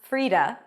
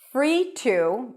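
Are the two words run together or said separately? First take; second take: run together; separate. First: The two words blend into one word, Frida. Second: The two words are said separately and fully.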